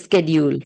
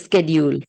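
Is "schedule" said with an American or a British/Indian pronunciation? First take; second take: American; American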